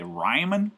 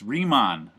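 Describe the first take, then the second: First: Ryman, first syllable rhyming with "eye"; mispronounced as Ryman. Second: Riemann as REE-mahn, with a full open "ah"; correct Riemann. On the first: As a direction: say Ryman as RYE-mun, like a rhymer. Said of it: "I've heard some people say Ryman". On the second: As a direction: say Riemann slowly, REE then a clear MAHN. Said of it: "it's Riemann was his name". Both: Shown as a demonstration.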